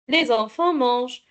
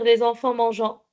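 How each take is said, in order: First: The verb ends in a consonant sound. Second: The verb ends in a nasal vowel sound. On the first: The speaker calls it right. "on ne lit pas le ent, ce sont des lettres muettes" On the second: The speaker calls it wrong. "On ne peut pas dire"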